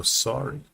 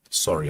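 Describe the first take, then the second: First: Lightly put-on American accent, higher. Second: Said in the usual way. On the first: Shown as a demonstration. Animator voices the character's apology in an American accent. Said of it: "not gonna keep doing the American accent". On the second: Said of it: "I'm not gonna keep doing the American accent".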